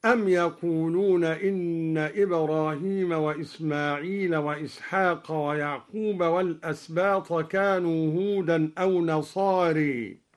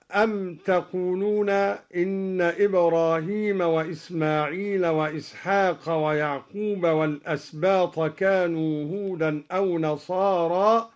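First: "يقولون" begun with ya, yaquluna, not taquluna; ya reading. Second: Said in the usual way. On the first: Shown as a demonstration. Teacher recites al-Duri's reading with ya in "يقولون". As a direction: start the verb "يقولون" with a clear ya. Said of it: "قرأ الدوري بالياء هكذا". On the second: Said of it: "قرأ الدوري بالياء".

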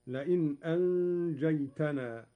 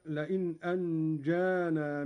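First: "أنجيتنا" said anjaytanaa, with a taa; taa of address. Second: Said in the usual way. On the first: Shown as a demonstration. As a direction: recite "أنجيتنا" with taa after the ay. ("أنجيتنا" بالتاء على الخطاب) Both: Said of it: "بالتاء على الخطاب".

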